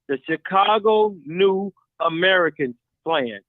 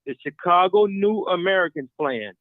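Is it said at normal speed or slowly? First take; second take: slowly; normal speed. First: It is said very slowly. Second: It is said at normal speed.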